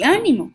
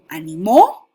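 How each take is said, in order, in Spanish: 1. El acento cae en la primera sílaba. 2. El acento cae en la última sílaba. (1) "como esdrújula" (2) "como aguda"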